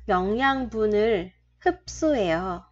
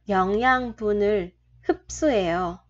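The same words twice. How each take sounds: The two takes are said the same way.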